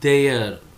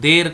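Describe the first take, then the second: First: The word is said with a glide, two syllables. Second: The word is said as one short syllable. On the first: The speaker calls it right. "ఇది దేయర్" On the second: The speaker calls it wrong. "దేర్ కాదు"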